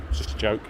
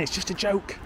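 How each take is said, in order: First: Said in the usual way. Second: High, softish mimicry of excuse-makers; put-on "they all say" voice; mocking stock excuse. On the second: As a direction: parrot the old excuse in a higher voice. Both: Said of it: "that's what they all say".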